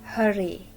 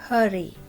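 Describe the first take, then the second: No difference in how they are said.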